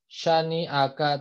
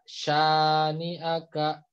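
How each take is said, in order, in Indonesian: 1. Vokal pertama dibaca pendek. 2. Vokal pertama dibaca panjang. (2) "karena panjang jadi baca"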